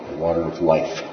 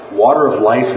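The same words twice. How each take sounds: First: The weight falls on "life", voice dropping; stress on life. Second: Said in the usual way. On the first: Shown as a demonstration. Teacher explaining living water to the class, stress on "life". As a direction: land on "life" as the key word, with a falling tone. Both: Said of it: "With the emphasis on life".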